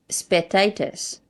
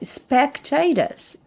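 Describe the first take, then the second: First: The c sound is left out. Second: The c sound is clearly pronounced. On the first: The speaker calls it wrong. "You don't read spectators" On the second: The speaker calls it right. "You read the C"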